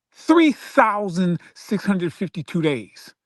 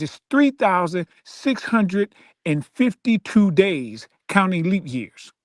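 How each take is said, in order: First: Slow, each number stressed; slow emphasis. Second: Drawn out, every number weighed; slow emphasis. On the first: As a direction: hammer home the number of days. Repeating the day count. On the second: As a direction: count the days out slowly, for effect. Spelling out ten years. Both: Real, not acted.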